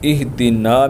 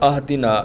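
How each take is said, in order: First: The word begins with an 'i' vowel. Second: The word begins with an 'a' vowel.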